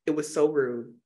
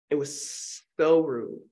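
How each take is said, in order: First: Said in the usual way. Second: SO stretched out long and slow; drawn-out emphasis. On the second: Real, not acted. Reviewer repeats how rude the movie line was, slow drawn-out SO. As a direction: lean slowly on "so", dragging it out.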